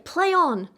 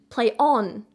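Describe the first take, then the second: First: The stress falls on the word play. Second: The stress falls on the word on. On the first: The focus is on the playing itself. "the emphasis would be on the play" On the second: The focus is on continuing. "with the on stressed"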